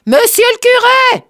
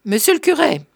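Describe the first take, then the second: First: Full shout. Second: Raised, high call upstairs; pitched-up hail, moderately loud. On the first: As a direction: yell for the priest over the sizzle of frying. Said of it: "La friture empêchait. Il cria". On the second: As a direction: call for the priest, short of a full shout. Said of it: "Il appela". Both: A narrator's reading.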